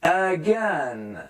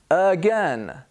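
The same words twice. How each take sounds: First: "Again" stretched as "uhh-gennn"; drawn-out teaching model of "Again"; exaggerated schwa. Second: "again" as "uh-GEN"; careful "again" with neutral first vowel; weak "uh" opening on "again"; schwa demo. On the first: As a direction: linger on both syllables of "Again", first one "uh". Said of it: "I'm trying to exaggerate". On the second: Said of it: "The A becomes a schwa". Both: Shown as a demonstration.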